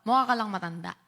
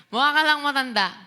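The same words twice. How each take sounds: First: Said in the usual way. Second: "Mukha ka lang matanda" repeated higher and louder, "ka" stressed; playful jab with "ka" hit hard; teasing punch on "Mukha ka lang matanda". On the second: Shown as a demonstration.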